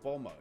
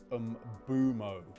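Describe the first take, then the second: First: The name starts directly with a 'b' sound. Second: The name starts with an 'um' sound. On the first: "I heard it's just like Bomo... Like you don't pronounce the M" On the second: "Getty's of the opinion that it is Umbumo"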